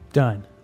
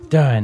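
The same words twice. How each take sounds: First: It is said flatly, like a full stop. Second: It is said excitedly, like an exclamation.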